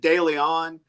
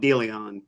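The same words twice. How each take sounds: First: It is said the general, outsider way. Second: It is said the local Texas way. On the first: "if you pronounce it De Leon, you're not wrong" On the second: "if you're from that little little patch of Texas, a lot of people call it De Leon"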